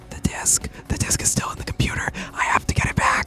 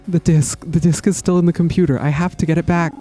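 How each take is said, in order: First: It is said in a real whisper. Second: It is said in a near-normal voice.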